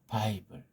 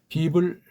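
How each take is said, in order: First: The first vowel is the diphthong 'ai'. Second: The first vowel is a plain 'ee' sound. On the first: The speaker calls it wrong. "아이자인 것으로 읽는 건 모음이 지들 멋대로 바꾼다는 거예요" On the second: The speaker calls it right. "이게 원래 이, 이자로 사람들이 약속을 했고"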